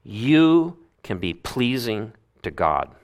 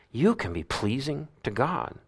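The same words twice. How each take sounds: First: Said in the usual way. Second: Said again much softer, stress on you; soft repeat. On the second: Shown as a demonstration. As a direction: let it sink in quietly.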